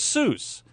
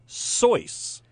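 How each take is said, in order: First: It is the commonly used pronunciation of the name. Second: It is the intended pronunciation of the name. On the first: This is how most people say it. The speaker calls it wrong. "Everyone says Seuss" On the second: This is how the name's owner meant it. The speaker calls it right. "it's supposed to be Seuss"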